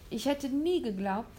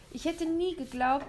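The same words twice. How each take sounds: First: Said in the usual way. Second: Put-on higher, earnest boy. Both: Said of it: "sagte William und meinte es ernst".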